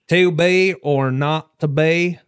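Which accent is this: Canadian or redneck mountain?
redneck. It is spoken in a redneck mountain accent. "in what we would call a redneck accent, which is like a mountain accent"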